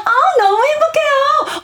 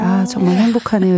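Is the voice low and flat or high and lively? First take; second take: high lively; low flat. First: It is high-pitched and lively, full of emotion. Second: It is low-pitched and flat, without emotion.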